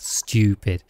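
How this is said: The vowel has a y glide before oo. "in the UK, we add a U, or there's a Y sound in there"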